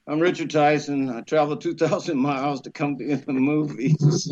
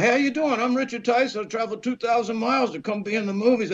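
First: Tired. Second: High-pitched, hurried self-introduction; eager sales pitch. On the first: Young actor at the ninth door, sweating and tired. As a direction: give the rehearsed pitch wearily, without any lift. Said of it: "Now I'm sweating, I'm tired". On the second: Young actor introducing himself to a studio man, eager and hurried. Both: Retold or imitated.

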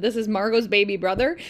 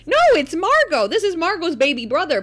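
First: Said in the usual way. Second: Much higher, louder correcting; insistent child. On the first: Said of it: "I just said". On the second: Retold or imitated. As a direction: set dad straight like a little know-it-all.

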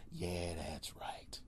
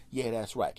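First: Slow, whispered yeah that's right. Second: Loud, cocky yeah that's right. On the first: Comic smugly whispers his boast to the audience. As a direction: hush it, smug and slow. Smug aside after bragging. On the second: Comic boasting to the crowd, loud and cocky. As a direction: brag it out to the crowd. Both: Real, not acted.

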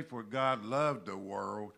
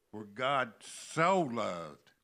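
First: Said in the usual way. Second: Slow, with "so" long and loud; stress on SO. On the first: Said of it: "It doesn't say". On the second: Shown as a demonstration. Preacher showing the verse's deeper love, stress on SO. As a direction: stretch "so" out and punch it. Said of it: "That puts a deeper, more emphasis".

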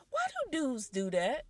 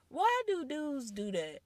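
First: Unvoiced whisper of disbelief. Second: Said in the usual way. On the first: Real, not acted. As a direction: breathe the question out in a whisper. Aside question, whispered.

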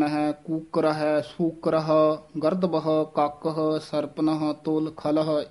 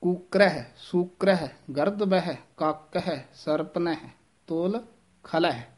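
First: ਹੈ run into the word before, as in ਕੂਕਰ ਹੈ; a wrong take with ਹੈ joined on; wrong pronunciation. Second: Each ਹੈ set apart after ਕੂਕਰ, ਸੂਕਰ, ਸਰਪਨ; correct pronunciation. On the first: Teacher shows students the wrong reading, run together. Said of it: "ਇਸ ਤਰ੍ਹਾਂ ਉਚਾਰਨ ਨਹੀਂ ਕਰਨਾ ਹੈ". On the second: Teacher shows students the correct reading, separate words. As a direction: clean take, every word separate. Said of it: "ਇਸ ਤਰ੍ਹਾਂ ਸ਼ੁੱਧ ਉਚਾਰਨ ਹੈ". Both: Shown as a demonstration.

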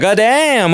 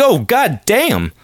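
First: Sharp high "Goddamn" with a fall; catcall. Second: Slow, higher "Oh, goddamn" in a put-on voice; imitating a street catcall at her smile; mock catcall. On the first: Retold or imitated. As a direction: exclaim it like a guy on the street. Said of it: "I'm like". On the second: Reacting to her smile, mock catcall voice. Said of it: "I was like".

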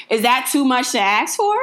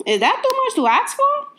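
First: Said in the usual way. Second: Playful, much higher-pitched plea; high put-on voice. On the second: Vlogger repeating her question to viewers, high mock plea. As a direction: ask it in a high little mock voice.

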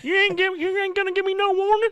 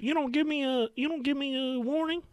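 First: Put-on better southern accent. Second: High-pitched mock Southern woman's whine; southern accent. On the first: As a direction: go all in on the Southern lady, squeal it high. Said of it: "That was better". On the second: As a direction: play the angry old Southern lady, pitched up high. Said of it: "Is that your southern accent?".

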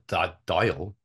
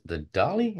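First: Dáil said like "doyle", questioning; corrected Dáil. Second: Dáil said like "dah-lee"; mispronounced Dáil. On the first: Repeating the Irish speaker's correction, Dáil pronounced properly. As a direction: say Dáil as one syllable, "doyle". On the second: Guest unsure of the Irish parliament's name, mispronounced Dáil. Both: Real, not acted.

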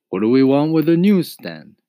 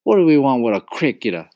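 First: High, loud echoing question; rhetorical retort. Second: High, fast, loud dismissal; scornful. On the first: Papa echoes Mama's question back at her, retorting. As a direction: throw the question back, rising then falling. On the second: Mama rejects the cricket, scornful. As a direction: scoff sharply at a raised pitch. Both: A narrator's reading.

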